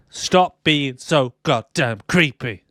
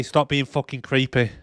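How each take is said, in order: First: Slow, word-by-word stress on "goddamn creepy"; drawn-out, punched "Stop being so goddamn creepy"; emphatic telling-off. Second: Said in the usual way. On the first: Pretend. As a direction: spell out "creepy" slowly in exasperation.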